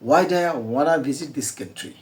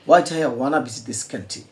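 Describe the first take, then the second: No difference in how they are said.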